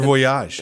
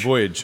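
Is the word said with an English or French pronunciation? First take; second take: French; English. First: It is said with a French pronunciation. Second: It is said with an English pronunciation.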